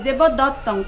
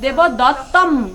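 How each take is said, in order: First: The word ends with an ng sound. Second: The word ends with an m sound. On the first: "দেবদত্তং আছে" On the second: "অনুস্বরে ম উচ্চারণটা আসবে"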